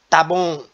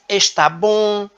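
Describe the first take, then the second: First: The first word is shortened to one syllable. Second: The first word is said in full. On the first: This is the everyday, non-standard form. "Na variedade não padrão, a pronúncia ela é simplificada" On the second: This is the standard, careful form. "Na variedade padrão, há uma maior preocupação com a pronúncia"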